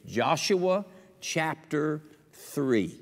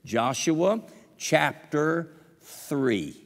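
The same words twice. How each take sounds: First: Drawn-out chapter announcement; slow drawn-out reference. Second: "Joshua chapter three" very slow and deliberate; slowly repeated reference; even slower emphasis. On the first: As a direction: stretch "Joshua chapter three" slowly. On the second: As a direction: drag each word for memory. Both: Shown as a demonstration. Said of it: "I want you to remember this".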